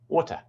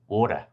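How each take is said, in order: First: The middle consonant sounds like a t. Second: The middle consonant sounds like a d. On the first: "But in British English" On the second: "in American English"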